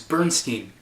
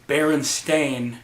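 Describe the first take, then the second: First: The last syllable rhymes with 'line'. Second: The last syllable rhymes with 'rain'. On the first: This is how many people remember the name. "It's Bernstein" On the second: This is how the name is actually pronounced. "once they hear it pronounced Berenstain"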